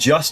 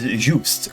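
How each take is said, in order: First: The name is said as the English word just. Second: The name is said with a French pronunciation. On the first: The speaker calls it wrong. "I mispronounced his name" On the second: The speaker calls it right. "coming from the French origin"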